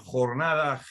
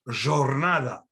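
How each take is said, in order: First: It uses the modern Spanish pronunciation. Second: It uses the Judeo-Spanish pronunciation. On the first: "in modern Spanish, you would say" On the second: "in Judeo-Spanish, you would say"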